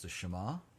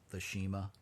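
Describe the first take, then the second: First: The word is pronounced the Hebrew way. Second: The word is pronounced the English way. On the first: The speaker calls it right. "Pronounce it like Hebrew" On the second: The speaker calls it wrong. "not the Shema"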